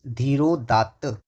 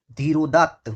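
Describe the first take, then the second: First: धीरोदात्त stretched out slowly, syllable by syllable; slow repeat. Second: Said in the usual way. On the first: Shown as a demonstration. Teacher repeating धीरोदात्त slowly for the students. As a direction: draw out धीरोदात्त slowly so the class can follow. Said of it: "क्या कहेंगे उसको हम?". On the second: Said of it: "क्या कहलाता है?".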